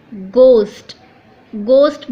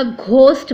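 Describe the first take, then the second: First: "गोस्ट" loud, with a hard unaspirated G; silent H. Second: "घोस्ट" with a strong breath after the G; H wrongly sounded. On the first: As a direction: say "गोस्ट" firmly with no H. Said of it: "उसका सही pronunciation बनेगा". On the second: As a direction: aspirate the G in "घोस्ट". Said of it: "ह वाला sound मत निकालिएगा". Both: Shown as a demonstration.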